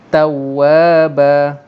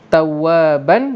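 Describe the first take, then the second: First: The word ends with a long vowel. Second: The word ends with an n sound. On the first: "kita buang satu baris, jadi tawaba" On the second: "Ayat ketiga tawaban"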